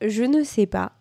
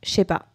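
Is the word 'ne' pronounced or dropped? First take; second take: pronounced; dropped. First: The word 'ne' is pronounced in full. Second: The word 'ne' is dropped. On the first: "Au lieu de dire" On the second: "Voilà comment on parle quand on parle vite"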